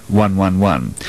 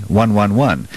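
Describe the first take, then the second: No difference in how they are said.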